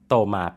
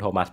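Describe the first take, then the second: First: The name ends without an s sound. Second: The name ends with a sounded s. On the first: "ชื่อฝรั่งเศสของเขาก็คืออ่านว่าโตมา" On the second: "อ่านแบบที่เราคุ้นเคยกันดี"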